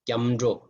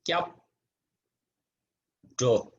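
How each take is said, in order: First: The syllables are joined, the p becoming m. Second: Each syllable is said separately, ending in p.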